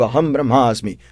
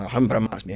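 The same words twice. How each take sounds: First: Said in the usual way. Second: Softer, hushed echo of the master's words; boy repeating. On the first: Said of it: "Repete comigo". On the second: Acted. Disciple repeats the mantra after his master, softly. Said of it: "Aí o menino fala".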